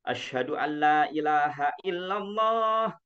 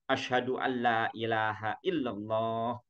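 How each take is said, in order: First: It is said in a loud, full voice. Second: It is said in a soft, quiet voice. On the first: "kalau pakai mic" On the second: "dengan suara yang lebih lirih dari suara yang pertama"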